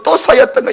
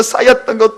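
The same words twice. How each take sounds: First: 또 punched higher before 쌓였던 거; 또 lifted and hit as the grievances stack; stress on 또. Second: Said in the usual way. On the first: Shown as a demonstration. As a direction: lean hard on 또 to pile it up. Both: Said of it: "억울함이 쌓였던 거".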